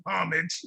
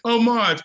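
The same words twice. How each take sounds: First: "homage" said HOM-ij, H pronounced; homage with sounded H. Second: "homage" said oh-MAHZH, higher; homage with silent H. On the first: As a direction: say "homage" as HOM-ij, stress up front. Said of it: "is the incorrect spelling of". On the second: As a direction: say "homage" French-style, no H: oh-MAHZH. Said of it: "Google said". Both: Shown as a demonstration.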